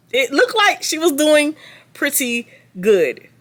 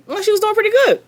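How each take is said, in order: First: Slow sarcastic drawl. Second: Sarcastic. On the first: Sarcastic repeat, drawn out. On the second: Sarcastic remark on Brittany. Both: Acted.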